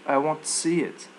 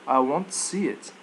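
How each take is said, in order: Both takes have the same delivery.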